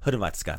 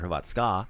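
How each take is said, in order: First: The stress is on the first syllable. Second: The stress is on a later syllable. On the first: The speaker calls it right. "So accent the first syllable. Like usual, like Hrvatska" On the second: The speaker calls it wrong. "not Hrvatska"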